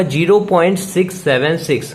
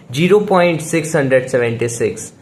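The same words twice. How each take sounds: First: "zero point six seven six" with each digit separately stressed; teacher spelling out "six seven six" digit by digit; read digit by digit. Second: Said in the usual way. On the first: Shown as a demonstration. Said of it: "हमें इसको कैसे पढ़ना होगा". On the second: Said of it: "अभी मैंने क्या पढ़ा".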